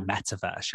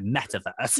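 First: Said in the usual way. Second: Mock-sassy imitation of her tone. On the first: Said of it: "even the way you say metaverse". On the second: Host mimics guest's way of saying metaverse, sassy. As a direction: spit it out like a swear word, teasingly.

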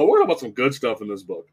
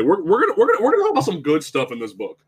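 First: Said in the usual way. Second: Rapid, stumbling, raised-pitch restart; hurried, forced positivity; flustered insistence. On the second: Real, not acted. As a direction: rush to change the subject. Flustered scramble back to good news.

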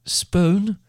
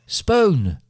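First: High rising call, questioning; shouted call. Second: Loud high shout, falling sharply; shouted call. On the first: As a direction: call out for her from another room. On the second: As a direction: shout her name louder, dropping at the end. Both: A narrator's reading. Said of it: "by her mother shouting from the other room".

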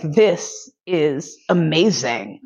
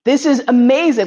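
First: Slow, low, drawn-out savouring; savouring slowly. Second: Higher, louder burst of delight; excited delight. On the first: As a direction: let each word melt, blissed out. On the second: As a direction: shout it out, thrilled. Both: Retold or imitated. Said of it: "And I was like".

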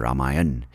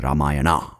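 First: "Ramayan" ending on the n; northern pronunciation. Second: "Ramayana" with a final a sounded; southern pronunciation. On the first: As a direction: drop the last a of "Ramayan". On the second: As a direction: add an open a ending to "Ramayana". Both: Shown as a demonstration. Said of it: "giving you a north and south pronunciation".

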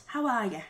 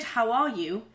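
First: "how are ya" with you reduced to "ya"; Irish pronunciation. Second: Said in the usual way. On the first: Shown as a demonstration. Teaching the Irish version, "how are ya" with reduced you. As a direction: slide "how are ya" together, ending on "ya". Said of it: "should be pronounced". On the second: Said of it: "the standard".

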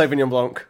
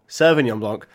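First: Said in the usual way. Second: "Sauvignon" pronounced "serve-ignon"; punning pronunciation. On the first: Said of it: "or Sauvignon Blanc". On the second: Shown as a demonstration. Repeating his Wimbledon wine pun, "serve-ignon" pronunciation. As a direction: open "Sauvignon" with the word "serve". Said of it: "are you ready for this".

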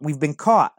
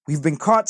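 First: Loud, higher repeated alarm; shouting. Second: Loud, higher alarm call; shouting. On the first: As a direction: shout it once more as a warning. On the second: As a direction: shout it out as a warning. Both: A narrator's reading. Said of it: "I shouted".

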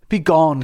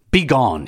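First: Begone wailed high and loud in anguish; shrieked Begone. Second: Sharp raised cry of Begone. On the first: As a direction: cry Begone as a mourner. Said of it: "shrieked like the women who lament". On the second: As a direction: drive the slave out with a shout. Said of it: "he cried". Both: A narrator's reading.

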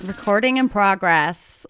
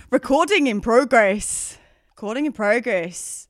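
First: Slow attempt at an American accent. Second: Drawn-out, bad Australian accent. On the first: Podcaster copying the recording notice, attempted American accent. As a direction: mimic an automated notice in a wobbly American accent. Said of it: "I can't do American accent". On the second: Podcaster performing recording notice on request, terrible Australian accent. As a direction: attempt a hammy Australian accent. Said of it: "horrific attempt at an Australian accent".

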